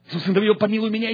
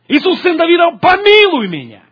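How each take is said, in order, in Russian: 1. Крик выкрикивают тише. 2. Крик выкрикивают ещё громче. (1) "Смотрите" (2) "Он еще более орал"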